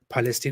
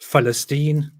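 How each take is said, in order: First: The word begins with a P sound. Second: The word begins with an F-like sound. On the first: "the sound of the P" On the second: "slightly makes it sound like an F"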